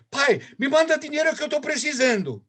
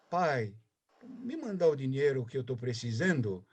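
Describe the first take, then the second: First: It sounds bossy and demanding. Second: It sounds warm and affectionate.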